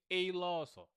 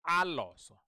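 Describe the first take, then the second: First: "eloso" with an English ay at the start; wrong first vowel. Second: "aloso" with a strong open ah first; correct first vowel. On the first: Teacher warning against reading the letter A, ay vowel. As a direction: say "eloso" as ay-loso. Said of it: "Don't say eloso". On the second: Teacher telling learners what to say, stressed ah vowel. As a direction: punch "aloso" as ah-loso. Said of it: "So just say". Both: Shown as a demonstration.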